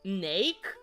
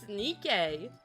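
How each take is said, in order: First: The word is pronounced like 'nake'. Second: The word is pronounced like 'nikkei'. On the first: The speaker calls it wrong. "I've always pronounced it as Nake" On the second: The speaker calls it right. "It's Nikkei though"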